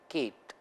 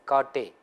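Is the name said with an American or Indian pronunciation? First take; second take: American; Indian. First: The name is said with an American pronunciation. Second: The name is said with an Indian pronunciation. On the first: The speaker calls it wrong. "for the American, this will be Kate" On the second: The speaker calls it right. "according to that regional variation, it's Kate"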